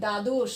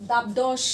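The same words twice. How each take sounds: First: দ্বাদশ said as daddosh, ব silent, d doubled; correct pronunciation. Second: দাবদশ with the ব sounded, louder; wrong spelling pronunciation. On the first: Teacher models the right way: দ্বাদশ as daddosh. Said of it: "আমরা কি বলি?". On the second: Teacher shows the wrong way: দাবদশ with the b pronounced. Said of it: "এরকম উচ্চারণ করি?". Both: Shown as a demonstration.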